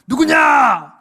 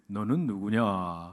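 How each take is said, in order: First: It is shouted loudly in alarm. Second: It is said calmly and politely.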